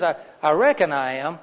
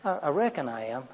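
First: "I, I reckon I am" leaning on "reckon" with certainty; firm reckon. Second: Stammered "I, I, I reckon I am", quiet and halting; highly uncertain. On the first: Husband assuring wife he'll be home, firm. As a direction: press "reckon" so it sounds like a promise. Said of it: "you can count on it". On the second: Husband hedging to wife about supper, halting. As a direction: stumble over the I's, unsure. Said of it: "Highly uncertain". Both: Shown as a demonstration.

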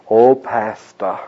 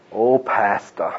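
First: Slow, syrupy "Oh, pastor"; fawning mock greeting. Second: Slow, quieter "Oh, pastor" trailing off; softer fawning echo. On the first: Preacher mocking a two-faced church member, slow and fawning. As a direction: drag it out like a flatterer. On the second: Retold or imitated. Preacher repeating the flatterer's greeting, slow and soft. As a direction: let the flattery melt away. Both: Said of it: "To my face".

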